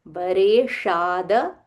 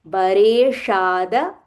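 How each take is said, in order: The two takes are said the same way.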